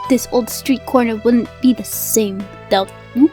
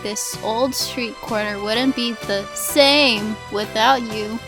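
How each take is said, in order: First: Emphasis falls on every other word. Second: Emphasis falls mainly on the word same. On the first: "you put emphasis on every other word" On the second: "don't put the emphasis on the same"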